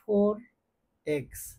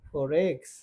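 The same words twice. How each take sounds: First: The two words are said separately. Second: The r sound links into the next word. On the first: "আমরা এটাকে বলি" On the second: "এই আরটা এই ই এর সাথে যাবে"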